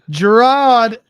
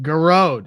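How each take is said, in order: First: The name sounds like the English 'Gerard'. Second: The name sounds like 'Garode', ending in 'rode'. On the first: The speaker calls it wrong. "I still butchered it" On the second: The speaker calls it right. "Irish Garode, not the French"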